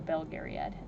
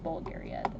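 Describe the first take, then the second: First: The first syllable is pronounced 'bel'. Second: The first syllable is pronounced 'bul'. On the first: The speaker calls it right. "I guess it's Belgarian, not Bulgarian" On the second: The speaker calls it wrong. "I always pronounce it like Bulgariad"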